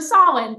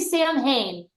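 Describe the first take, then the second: First: It is said without a clear h sound. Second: It is said with a clear h sound. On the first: The speaker calls it right. "So Samhain, thank you" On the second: The speaker calls it wrong. "I want to say Sam Hain. Wrong, wrong, it's just wrong"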